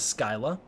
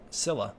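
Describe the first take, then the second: First: The word begins with an sk sound. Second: The word begins with a plain s sound. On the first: The speaker calls it wrong. "I always thought it was Skyla" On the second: The speaker calls it right. "pronounced like Zilla, but with an S instead of a Z"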